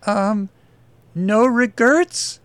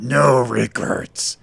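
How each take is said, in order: First: High, hesitant questioning voice; timid reading. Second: Slow, gravelly growl. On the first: Desk girl reads the tattoo to her attacker, timidly. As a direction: read it timidly, slowly rising into a question. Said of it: "Lily timidly read". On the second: Tattooed attacker repeats the tattoo's words, growling. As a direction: growl it slowly, with menace. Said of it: "Berkey growled". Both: Acted.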